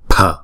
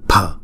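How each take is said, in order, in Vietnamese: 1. Âm p phát ra có hơi bật. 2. Âm p phát ra có hơi bật.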